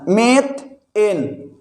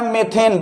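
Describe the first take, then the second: First: "methane" very slow, pause between मेथ and एन; syllable split. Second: Said in the usual way. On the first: Shown as a demonstration. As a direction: break "methane" into two drawn-out parts, मेथ... एन. Teacher splits word while building it. ("Methane" को धीरे-धीरे, मेथ और एन के बीच रुककर)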